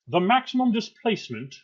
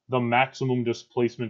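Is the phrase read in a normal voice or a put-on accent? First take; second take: put-on accent; normal voice. First: It is read in a put-on old Scottish accent. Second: It is read in the speaker's own normal accent.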